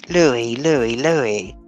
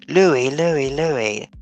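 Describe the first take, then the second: The two takes are said the same way.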